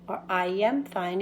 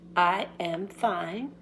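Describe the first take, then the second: First: The words are run together smoothly. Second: Each word is said separately.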